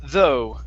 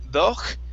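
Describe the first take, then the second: First: It ends in an open vowel sound. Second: It ends with a harsh throaty consonant. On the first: The speaker calls it right. "The G H here is silent" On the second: The speaker calls it wrong. "instead of saying doch"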